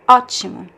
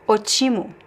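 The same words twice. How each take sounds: First: The stress is on the first syllable. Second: The stress is on the second syllable. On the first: The speaker calls it right. "the stress is actually in the letter O at the beginning" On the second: The speaker calls it wrong. "If we do not have this accent, it would be"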